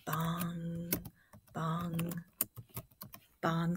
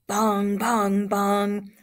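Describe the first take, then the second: First: Low, quiet, spaced bongs; soft bell imitation. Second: Loud, level bongs; ringing fight bell. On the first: Shown as a demonstration. Teacher recalling the sound of the bell, soft spaced bongs. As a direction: toll it softly, leaving long gaps. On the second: Acted. Teacher reading the fight's opening bell to students, loud ringing bongs. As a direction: ring it out like a ringside bell.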